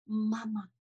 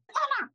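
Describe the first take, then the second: First: Tender call. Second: Put-on high, loud, childlike shout of "妈妈"; bright exuberant "妈妈" yelled across the street; eager loud call. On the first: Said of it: "我就很温柔的叫了一声". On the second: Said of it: "我一定会这样". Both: Shown as a demonstration.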